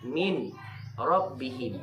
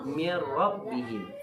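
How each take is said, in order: First: The n is heard separately before the r. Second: The n merges directly into the r. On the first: The speaker calls it wrong. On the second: The speaker calls it right. "dibaca mir rabbihim. Langsung min ke ra terus"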